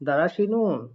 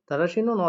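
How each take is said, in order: First: The word begins with a plain d sound. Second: The word begins with an aspirated th sound. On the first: "দ দিয়ে পড়তে পারেন" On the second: "থ দিয়ে পড়লেও ভুল হবে না"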